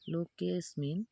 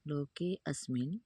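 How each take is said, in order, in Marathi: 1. smin च्या आधीचा स्वर पूर्णपणे गाळला जातो. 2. asmin च्या आधी एक पुसटसा स्वर ऐकू येतो. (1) "त्यावेळेस तो अचा उच्चार लुप्त होऊन जातो" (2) "पुसटसा अ असा उच्चार होतो"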